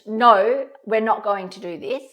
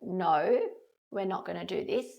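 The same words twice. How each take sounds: First: It is said in a tense, stressed tone. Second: It is said in a calm, gentle tone. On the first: The boundary feels rushed and tense to the child. The speaker calls it wrong. "stressed no" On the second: The boundary feels safe and calm to the child. The speaker calls it right. "a gentle no"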